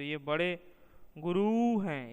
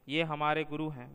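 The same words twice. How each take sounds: First: Guru stretched and pitched higher and louder; ironic, elongated Guru; sarcastic stress. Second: Said in the usual way. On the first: Shown as a demonstration. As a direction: drag out Guru mockingly, meaning a cunning rascal. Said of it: "गुरु शब्द को तनिक दीर्घ या प्लुत स्वर के साथ बोला". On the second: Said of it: "गुरु साधारण नीचे स्वर से".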